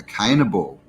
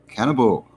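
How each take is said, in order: First: "cannibal" with first vowel as in Cain; punning pronunciation. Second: Said in the usual way. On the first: Shown as a demonstration. Streamer punning on Cain, "cannibal" said as CANE-ibal. Puns on Cain, then corrects it.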